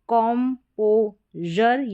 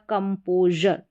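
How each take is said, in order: First: The first syllable has an open o vowel. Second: The first syllable has a short uh vowel. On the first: "कॉम्पोजर या कंपोजर, दोनों तरीके से pronounce कर सकते हैं" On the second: "कॉम्पोजर या कंपोजर, दोनों तरीके से प्रोनाउंस कर सकते हैं"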